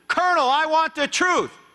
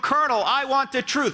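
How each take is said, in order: First: It is said loudly and forcefully. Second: It is said calmly and weakly.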